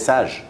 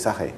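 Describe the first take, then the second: First: The name is said with a French pronunciation. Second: The name is said with a Spanish pronunciation. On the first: This is how people in France say it. "in France they say Sage" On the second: This is how people in Spain say it. "you don't say Sage in Spain, I believe. You say Sage"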